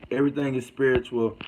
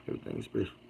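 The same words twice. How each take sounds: First: Said in the usual way. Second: Quiet read. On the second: Real, not acted. Reading a comment under breath.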